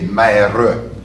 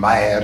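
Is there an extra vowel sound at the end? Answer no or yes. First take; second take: yes; no. First: The final E is sounded as an extra syllable. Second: The word ends without a final vowel sound. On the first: "you say mere. Gives you an extra syllable" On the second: "Instead of saying mer"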